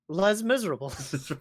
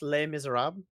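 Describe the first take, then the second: First: The title is said with an English-style pronunciation. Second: The title is said with a French-style pronunciation. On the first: The speaker calls it wrong. "which is so bad" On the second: The speaker calls it right. "I know it's pronounced Les Miserables"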